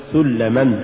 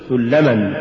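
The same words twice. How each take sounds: First: سلما broken as سل + لما; wrongly split word. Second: سلما as one unbroken word; correctly joined word. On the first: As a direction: detach the first syllable of سلما. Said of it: "ولا تقل". (فصل «سلما» إلى كلمتين) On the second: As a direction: keep the syllables of سلما bound together. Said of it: "قل". (نطق «سلما» كلمة واحدة) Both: Shown as a demonstration.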